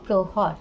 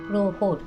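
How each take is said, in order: First: The vowel after 'h' is a plain 'a'. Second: The vowel after 'h' is an 'o'. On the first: "আমরা লিখব প্রহর" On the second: "উচ্চারণ করতে হবে প্রহর। র থাকলে আগের হটা ওকার হয়ে যাবে।"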